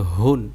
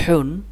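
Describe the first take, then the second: First: হুন with a relaxed, open-throated h. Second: হুন with air pushed through a tightened throat; squeezed-throat h. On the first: Teacher showing the contrasting letter, open h in হুন. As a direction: let the throat go loose on the h of হুন. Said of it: "এটা গলা ছেড়ে দিয়ে". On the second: Teacher demonstrating a throat letter, pressed h in হুন. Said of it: "গলার চাপ দিয়ে বাতাস বের করে". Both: Shown as a demonstration.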